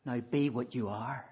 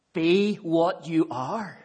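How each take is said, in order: First: Said in the usual way. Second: "Be" drawn out, slower and louder; stress on Be. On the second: Shown as a demonstration. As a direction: lean slowly into "Be what you are".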